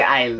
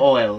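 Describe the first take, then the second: First: The vowel sounds like the one in 'aisle'. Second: The vowel sounds like the one in 'oil'. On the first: This is how the speaker's own community says it. "We say aisle" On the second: This is how Americans say it. "We don't say oil"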